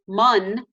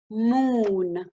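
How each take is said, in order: First: The vowel is a short 'uh' sound. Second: The vowel is a long 'oo' sound. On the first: The speaker calls it wrong. "I wouldn't pronounce it m-uh-n" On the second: The speaker calls it right. "I would say ooh"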